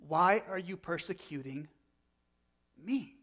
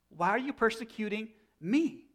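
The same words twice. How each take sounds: First: Said in the usual way. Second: Why are you persecuting me repeated higher, pressing hard on me; emphatic repeat. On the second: Retold or imitated. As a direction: repeat the question higher and with more insistence, leaning on the word me. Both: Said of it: "And look what Jesus is saying".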